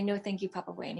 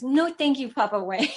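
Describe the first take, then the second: First: Said in the usual way. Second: Put-on higher, louder little-kid echo; lightly voiced toddler repeating; imitating toddler. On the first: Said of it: "just say". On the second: Toddler son parroting his mother, lightly voiced higher. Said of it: "He goes".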